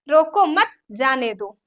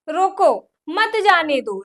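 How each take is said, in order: First: The pause comes right after 'mat'. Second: The pause comes right after 'roko'.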